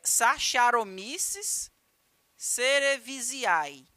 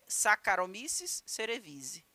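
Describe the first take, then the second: First: The name is pronounced letter by letter as written. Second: The name is pronounced in its usual spoken way. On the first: "escreve-se assim" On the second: "mas a pronúncia é"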